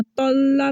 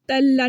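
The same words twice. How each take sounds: First: तल्ला with thick T and rounded vowel, "tolla"; heavy correct reading. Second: तल्ला with a light T, "tella"; thin, front-vowel तल्ला; thin wrong reading. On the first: Teacher showing what to read, full "tolla". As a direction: fill the mouth on तल्ला, "tolla". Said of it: "पढ़ना है". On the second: Teacher showing what not to read, thin "tella". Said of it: "नहीं पढ़ना". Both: Shown as a demonstration.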